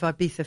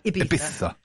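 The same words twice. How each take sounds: First: It is said with a plain English accent. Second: It is said with a Spanish accent.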